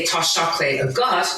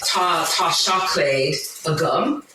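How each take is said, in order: First: Careful Irish with "gut" ending in a rise; second-person form shown to a listener; Irish example phrase. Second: Slow, careful Irish with "gum" ending in a rise; first-person form shown to a listener; Irish example phrase. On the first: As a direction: set "a gut" against "a gum". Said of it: "if I wanted to say". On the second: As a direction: sound out "Tá seaclaid a gum" for learners. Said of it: "for example, say". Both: Shown as a demonstration.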